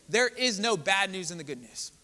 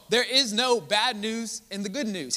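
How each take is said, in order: First: Said in the usual way. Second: There is no bad news in the good news, pressed harder; louder, emphatic repeat. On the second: Shown as a demonstration. Preacher repeating the line to the church, louder. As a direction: punch it higher and stronger.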